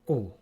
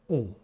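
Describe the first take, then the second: First: The vowel is held only briefly. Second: The same.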